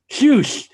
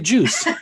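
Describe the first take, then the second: First: The word begins with a lisped 'sh' sound. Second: The word begins with a clear 'j' sound. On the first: It imitates a small child's lisp. "With her little lisp" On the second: It is the adult prompt. "Say juice"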